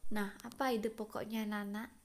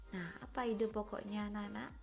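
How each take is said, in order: Both takes have the same delivery.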